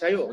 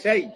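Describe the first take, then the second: First: The syllable ends with an added 'o' vowel. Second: The syllable ends cleanly with no added vowel. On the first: The speaker calls it wrong. "শাইও শাইও বলা যাবে না।" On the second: The speaker calls it right. "সবাই বলেন শাই।"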